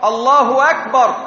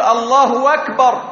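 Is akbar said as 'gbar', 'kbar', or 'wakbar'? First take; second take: wakbar; wakbar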